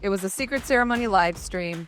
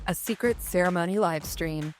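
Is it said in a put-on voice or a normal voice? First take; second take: normal; put-on. First: It is said in a normal voice. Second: It is said in a put-on voice.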